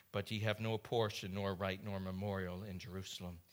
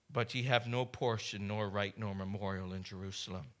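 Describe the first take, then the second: The two takes are said the same way.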